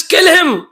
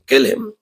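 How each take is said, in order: First: "kill him" snapped out high; mock angry order. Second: Said in the usual way. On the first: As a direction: bark the order, higher, like a furious king. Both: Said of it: "Hiranyakashipu said".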